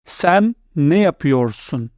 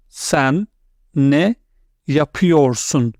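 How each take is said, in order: First: Said in the usual way. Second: "Sen", "ne", "yapıyorsun?" each said apart; word by word model pronunciation. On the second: Shown as a demonstration. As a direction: break "Sen ne yapıyorsun?" into three careful words.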